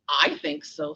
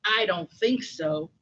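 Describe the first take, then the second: First: "I" leaned on, lower pitch; stress on I. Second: Said in the usual way. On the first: Acted. Mouse contradicting the scoffing lion, stressing "I". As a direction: put the weight on "I" in reply.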